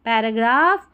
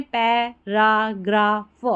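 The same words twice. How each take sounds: First: Said in the usual way. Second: "पैराग्राफ" slowly split, pai-raa-graa-f; broken into syllables. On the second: Shown as a demonstration. Teacher breaks the word for learners, "पैराग्राफ" syllable by syllable. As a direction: sound out "पैराग्राफ" piece by piece. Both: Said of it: "तोड़ के पढ़ें".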